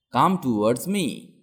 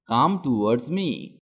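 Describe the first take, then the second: No difference in how they are said.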